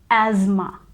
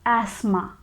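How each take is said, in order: First: It is said with an American accent, with a z sound. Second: It is said with a British accent, without a z sound. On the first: "in American English, we pronounce this word as asthma. ... We get this z sound in the beginning" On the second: "in British English, we pronounce it as asthma. ... There is no z sound here"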